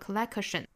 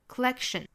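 First: The k is fully exploded with a vowel after it. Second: The k is held and not audibly released. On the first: The speaker calls it wrong. "大家不要发成了 collection。如果发成了 collection，相当于在 k 的后面加了一个元音了" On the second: The speaker calls it right. "所以应该是 collection。collection 可以选择在 k 的这个位置憋这么一下"

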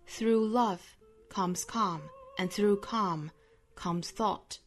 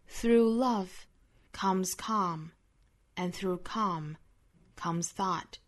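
First: The sentence is read in a British accent. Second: The sentence is read in an American accent.

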